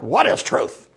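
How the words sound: It is said flustered and dismissive, brushing it off.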